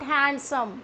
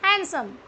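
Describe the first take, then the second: First: The D sound is clearly pronounced. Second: The D sound is left silent. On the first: The speaker calls it wrong. "नोट हैंडसम" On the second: The speaker calls it right. "It's हैंडसम"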